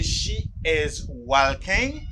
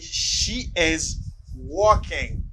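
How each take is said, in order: First: The L sound in walking is pronounced. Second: The L sound in walking is silent. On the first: The speaker calls it wrong. "Do not say she is walking. Do not pronounce this letter" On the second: The speaker calls it right. "Say she is walking"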